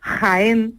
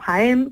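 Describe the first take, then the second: First: The J is a harsh, raspy throat sound. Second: The J is a soft, breathy h sound. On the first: Eastern Andalusian speakers say it this way. "no pronuncian la de manera aspirada la G y la J" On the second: Western Andalusian speakers say it this way. "como decimos los de la zona occidental"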